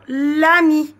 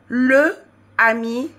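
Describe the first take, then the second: First: The vowel of le is dropped before ami. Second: The vowel of le is kept before ami. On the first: The speaker calls it right. "le E, on la supprime et on met une apostrophe" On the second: The speaker calls it wrong. "Le ami devient"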